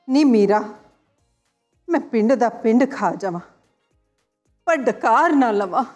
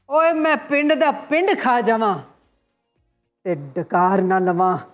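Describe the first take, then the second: First: It is said in a sad tone. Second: It is said in a happy tone.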